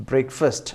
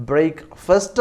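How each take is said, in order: First: Said in the usual way. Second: Breakfast said slowly as brek-fest, not fast; correct pronunciation. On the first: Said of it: "breakfast എന്നാണ് യഥാർത്ഥ pronunciation". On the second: Shown as a demonstration. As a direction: spell out breakfast slowly, the end sounding fest and never fast. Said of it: "യഥാർത്ഥ pronunciation. ഫാസ്റ്റ് അല്ല".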